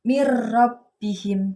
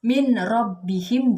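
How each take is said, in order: First: The n disappears, merging into a doubled r. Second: The n is clearly pronounced before the r. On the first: The speaker calls it right. "tetapi dengan mir rabbihim gitu" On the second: The speaker calls it wrong. "Bacanya bukan dengan min rabbihim, bukan"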